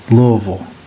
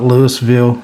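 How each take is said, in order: First: The name is said the local Kentucky way. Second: The name is said a non-local way. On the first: The speaker calls it right. "If you live in Kentucky, that's how you pronounce it" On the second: The speaker calls it wrong. "It's not Louisville"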